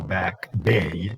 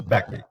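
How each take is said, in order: First: The vowel in 'bay' is held long. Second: The vowel in 'bay' is kept short. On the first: The speaker calls it wrong. "You don't do it this way" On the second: The speaker calls it right. "So you make this short"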